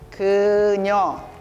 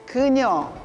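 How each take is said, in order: First: It is said slowly. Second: It is said fast.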